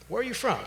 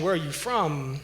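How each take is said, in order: First: Asked up high, lightly calling out to a stranger; an open, higher-pitched street greeting, not a threat; raised friendly question. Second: Said in the usual way. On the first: Retold or imitated. Approaching the angry man, asking. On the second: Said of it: "is a potentially provocative question".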